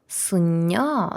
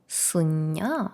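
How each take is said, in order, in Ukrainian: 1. Перед n іде звук 'n'. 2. Перед n іде звук 'n'.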